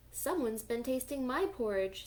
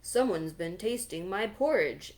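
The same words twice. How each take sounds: First: Lightly voiced mama bear; just a hint of mama bear; middle-sized voice. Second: Louder, booming papa bear; great big voice. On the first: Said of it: "in her middle-sized voice". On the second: Acted. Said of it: "in his great big voice".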